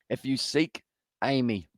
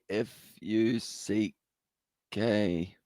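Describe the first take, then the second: First: It is said at normal speed. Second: It is said slowly, word by word.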